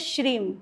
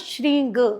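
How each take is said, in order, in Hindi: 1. यह शब्द m ध्वनि से खत्म होता है। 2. यह शब्द ng ध्वनि से खत्म होता है। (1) "गृहस्थ लोग हैं वो प्रोनाउंस करते हैं ... ये मकार रूप में आते हैं गृहस्थ" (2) "जो सन्यासी वर्ग हैं वो श्रींग, गकार रूप में ले जाते हैं"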